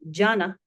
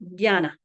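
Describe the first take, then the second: First: The first consonant is a hard j sound. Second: The first consonant is a soft dy sound. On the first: "Rather than jana" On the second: "it is diana"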